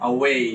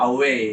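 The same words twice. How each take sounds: Both takes have the same delivery.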